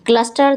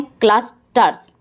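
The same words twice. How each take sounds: First: Said in the usual way. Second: "क्लस्टर्स" broken as clus, ters; split into syllables. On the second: Shown as a demonstration. Teacher counting syllables for pupils, "क्लस्टर्स" split in two. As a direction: say "क्लस्टर्स" in two separate beats. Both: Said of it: "दो syllable हैं".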